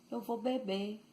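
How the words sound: Bahian accent; the final R nearly disappears.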